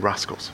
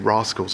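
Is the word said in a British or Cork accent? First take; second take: Cork; British. First: It is said in a Cork accent. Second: It is said in a British accent.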